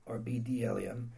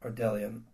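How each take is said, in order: First: "bdellium" slowly as "bi-dellium", with a b sound before the d; careful second attempt at "bdellium", very slow and quiet; pronunciation retry. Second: "bdellium" as "della-um", with a soft d; first take of "bdellium", lower and quiet; pronunciation try. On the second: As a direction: try "bdellium" quickly, sounding out "del". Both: Shown as a demonstration.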